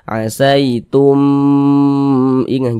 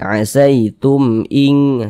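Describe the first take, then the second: First: The 'tum' is lengthened with a nasal hum. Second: The 'tum' is short with no nasal hum. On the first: The speaker calls it wrong. "Jangan dibaca asaitum ing, jangan dipanjangkan" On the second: The speaker calls it right. "jadi pendek saja. Asaitum ing, seperti itu"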